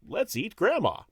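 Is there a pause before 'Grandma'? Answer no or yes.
no. There is no pause after 'eat'. Grandma is the one being eaten. "You take that comma away"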